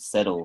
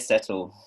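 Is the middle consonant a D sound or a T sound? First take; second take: D sound; T sound. First: The middle consonant sounds like a D. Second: The middle consonant sounds like a T. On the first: This is how Americans say it. "I think Americans use a D sound" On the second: This is how the speaker's own community says it. "No, we say settle"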